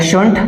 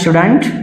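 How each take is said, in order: First: The words shrink to one short syllable. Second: The words merge into one contracted word. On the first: "या शुंट pronounce कर सकते हैं" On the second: "मिला के शुडंट"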